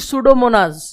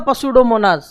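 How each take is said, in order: First: The word starts with an S sound. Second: The word starts with a spoken P sound. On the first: The speaker calls it right. "तो this is the सूडोमोनास" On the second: The speaker calls it wrong. "ये ऐसे नहीं होता पसुडोमोनास"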